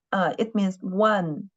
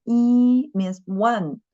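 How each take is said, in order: First: Said in the usual way. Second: Yi and one said slowly and a bit louder; slow stressed teaching line. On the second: Shown as a demonstration. Teacher explaining a character to students, slow and emphatic. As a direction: spell it out slowly so students catch the meaning of yi. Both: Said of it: "You know, yi".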